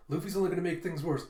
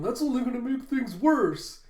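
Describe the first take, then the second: First: Even, quick reassurance at everyday volume; calming down. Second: High, loud mock panic; freaking out. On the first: Retold or imitated. Jinbei calming the crew by quoting Zoro, composed. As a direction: relay it steadily, without alarm. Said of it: "trying to calm him down". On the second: Crew reacting to Luffy's plan, freaking out. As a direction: cry out in exaggerated alarm. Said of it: "the Straw Hats are all freaking out".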